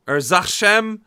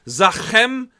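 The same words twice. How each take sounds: First: Trying Zachem again as zah-CHEM; second Russian try. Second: Zachem said with a hard kh in the middle; testing out Zachem as zah-KHEM; unsure Russian try. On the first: Vlogger guessing at Russian, trying Zachem with ch. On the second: Vlogger guessing at Russian, trying Zachem with kh. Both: Shown as a demonstration. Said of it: "I don't know how they pronounce the C H".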